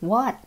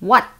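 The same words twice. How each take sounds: First: It is said in a friendly, pleasant tone. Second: It is said in a harsh, high, snarling tone. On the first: The speaker is happy to respond. "ด้วยรอยยิ้มแล้วก็บอกว่า" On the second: The speaker is hostile and annoyed. "snarl ก็แปลว่าการแยกเขี้ยวขู่แล้วก็ส่งเสียงสูง"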